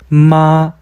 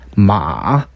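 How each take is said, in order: First: It is said with the first tone. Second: It is said with the third tone. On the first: It means mother. "어머니" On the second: It means horse. "말"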